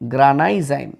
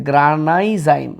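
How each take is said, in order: The two takes are said the same way.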